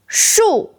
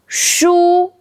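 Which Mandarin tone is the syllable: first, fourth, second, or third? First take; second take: fourth; first. First: The syllable is said with a falling tone. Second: The syllable is said with a high level tone. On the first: It means tree. "Fourth tone, 树 means tree" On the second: It means books. "first tone, 书 means books"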